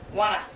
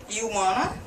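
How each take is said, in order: First: It is said fastest, as one reduced word. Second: It is said faster, with 'want to' reduced. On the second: "Then faster"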